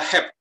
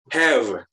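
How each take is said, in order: First: The word ends with a p sound. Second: The word ends with a v sound. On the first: "jatuhnya pada have. H E P" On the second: "tidak have"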